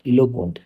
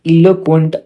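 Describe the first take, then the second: First: Said in the usual way. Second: "eloquent" high, loud and slow, falling at the end; announcing the word. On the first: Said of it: "eloquent speaker हो आप". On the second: Shown as a demonstration. Teacher introduces the new word to class, loud and slow. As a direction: present "eloquent" as a headline, drawn out. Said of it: "इसका मतलब होता है कि".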